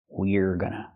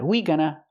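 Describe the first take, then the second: First: The 'er' sound after 'we' is clearly pronounced. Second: The 'er' sound after 'we' is left out. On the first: The speaker calls it right. "Make that er sound" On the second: The speaker calls it wrong. "Not we gonna"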